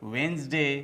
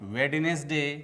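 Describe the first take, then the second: First: The middle 'nes' syllable is dropped. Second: The middle 'nes' syllable is pronounced. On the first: The speaker calls it right. "इसका सही उच्चारण होता है" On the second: The speaker calls it wrong. "दिनों के नाम जो हम बोलते हैं"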